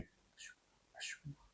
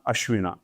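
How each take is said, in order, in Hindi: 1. शब्द धीमी फुसफुसाहट में बोला गया है। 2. शब्द पूरी आवाज़ में ज़ोर से बोला गया है। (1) "बस जैसे फुसफुसाना है" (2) "अभी तो मैं यहाँ पॉडकास्ट में इसलिए जोर से बोल रहा हूँ।"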